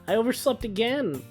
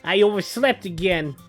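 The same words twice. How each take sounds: First: It is said in a plain, ordinary voice. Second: It is said in a put-on Brooklyn accent.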